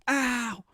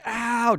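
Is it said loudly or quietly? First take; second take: quietly; loudly. First: It is said more quietly. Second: It is said at normal loudness.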